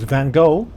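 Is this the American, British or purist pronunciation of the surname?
American. The name is said the American way, without F. "U S viewers might know him as"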